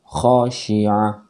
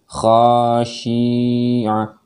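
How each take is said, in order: First: The short vowels are kept fully short. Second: A short vowel is stretched out long. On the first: The speaker calls it right. "bacaan yang pendek bacalah dengan betul-betul pendek" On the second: The speaker calls it wrong. "Jadi tidak boleh khasyi'ah, tidak boleh"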